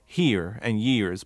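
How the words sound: The R sounds at the word ends are pronounced. The speaker calls it right. "would force those R's"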